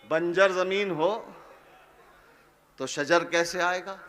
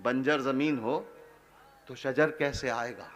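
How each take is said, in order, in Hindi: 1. यह पंक्ति पूरी, सामान्य आवाज़ में पढ़ी जाती है। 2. यह पंक्ति बहुत धीमी आवाज़ में पढ़ी जाती है।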